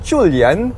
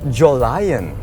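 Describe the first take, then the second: First: The name is said with Mandarin pronunciation. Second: The name is said the more social way. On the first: "it's pronounced Chulian in Mandarin" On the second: "the more social way of saying it"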